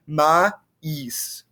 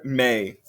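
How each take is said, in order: First: MAÏS in two distinct sounds, "ma-EES"; distinct vowels. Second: MAIS with A and I smushed into one "may" sound; smushed vowels. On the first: Teacher showing that you can hear both sounds, distinct vowels. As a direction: pull MAÏS apart into separate A and I sounds. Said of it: "they're very distinct". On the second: Teacher showing students that mais has one merged vowel, smushed vowels. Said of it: "get smushed together". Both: Shown as a demonstration.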